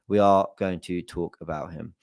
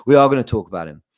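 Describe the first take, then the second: First: Said in the usual way. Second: Laughing through the words. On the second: Real, not acted.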